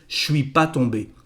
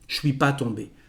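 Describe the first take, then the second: First: The word ne is left out. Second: The same.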